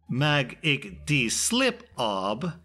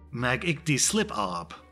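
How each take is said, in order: First: Every word is said with heavy, deliberate emphasis. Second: The words are said smoothly with ordinary emphasis. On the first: "place more emphasis on each word, so as to pronounce it clearly" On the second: "I confidently respond to her and say"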